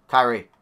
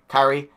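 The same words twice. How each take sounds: The two takes are said the same way.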